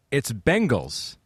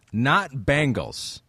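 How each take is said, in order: First: "Bengals" with an EH in the first syllable; corrected pronunciation. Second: "Bangles" with an A as in bang; mocked mispronunciation. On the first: Co-host reads a fan's correction to the host, pointedly slow "Bengals". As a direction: stretch out "Bengals" slowly as the right name. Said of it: "Eric Plumley says, "It's Bengals, not Bangles". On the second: Co-host quotes the host's habit back, drawn-out "Bangles" with an A. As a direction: drag out "Bangles" slowly as the wrong name. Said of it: "proclivity for saying Bengals". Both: Shown as a demonstration.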